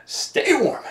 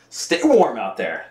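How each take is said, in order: First: Jumps up high, playful; high sing-song. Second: Said in the usual way. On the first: Real, not acted. Playful high send-off to chilly viewers.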